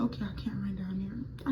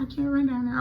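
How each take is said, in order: First: Hushed, breathless whisper of panic; frightened unvoiced whisper; scared whisper. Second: Said in the usual way. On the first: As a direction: whisper it like someone might hear. Panicked self quote at road.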